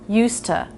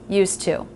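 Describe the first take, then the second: First: The word 'to' ends in a reduced schwa. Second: The word 'to' ends in a full oo. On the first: More of the thought follows. "There I'm saying used to, used to, instead of" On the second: The phrase ends the thought. "instead of used to"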